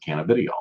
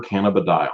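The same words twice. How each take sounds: First: "cannabidiol" said as canna-BID-ee-ol; popular pronunciation. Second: "cannabidiol" said as canna-buh-DIE-ol; standard pronunciation. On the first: Host shows how many people pronounce it, "cannabidiol" as canna-BID-ee-ol. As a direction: say "cannabidiol" with "bid-ee" in place of "die". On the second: Host defines what CBD is short for, "cannabidiol" as canna-buh-DIE-ol. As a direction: say "cannabidiol" with "die" near the end. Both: Shown as a demonstration. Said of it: "as you'll hear a lot of people pronounce it".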